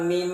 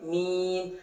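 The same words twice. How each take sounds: First: The vowel is short, not drawn out. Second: The vowel is drawn out for a long time. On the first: The speaker calls it wrong. "jangan mim" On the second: The speaker calls it right. "tapi mim"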